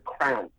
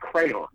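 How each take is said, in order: First: The word is squeezed into one syllable. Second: The word is said with two syllables. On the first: This is how one particular person says it. "She calls them crown" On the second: This is the usual way to say it. "Aren't crayon to her"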